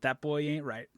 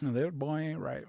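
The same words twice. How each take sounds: First: It is said in the speaker's ordinary voice. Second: It is said in a put-on Texan drawl.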